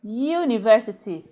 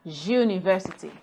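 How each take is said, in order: First: "university" begun with a long y glide; correct pronunciation. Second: "university" begun with a zh buzz; wrong pronunciation. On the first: Teacher giving students the right form, careful articulation. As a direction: model "university" carefully, yoo at the front. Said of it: "It's pronounced university". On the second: Teacher showing students the error, mispronounced word. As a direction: say "university" as zhuniversity. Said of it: "not university". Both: Shown as a demonstration.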